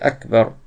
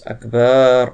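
First: The second syllable's vowel is kept short. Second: The second syllable's vowel is drawn out long. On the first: God is the greatest. The speaker calls it right. "Alors c'est Akbar" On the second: God is big drums. The speaker calls it wrong. "ils font pas attention. Ils disent Akbar"

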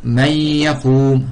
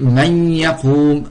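The two takes are said the same way.

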